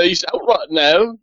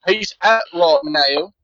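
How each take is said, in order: First: Botched British servant, a little drawn out; bad British accent. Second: Very slow, stretched-out bad British; bad British accent. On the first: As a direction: answer in a clumsy British accent. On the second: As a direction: repeat it slowly in a mangled British accent. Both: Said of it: "it's a really bad British".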